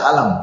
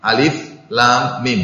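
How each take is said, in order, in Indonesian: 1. Hurufnya digabung menjadi satu kata pendek. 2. Setiap huruf diucapkan dengan nama lengkapnya. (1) "tidak dibaca alam" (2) "dibacanya per huruf ya"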